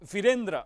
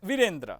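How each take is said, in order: First: The first vowel is held long. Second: The first vowel is held short. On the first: "વી દીર્ઘ છે" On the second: "વી હ્રસ્વ છે"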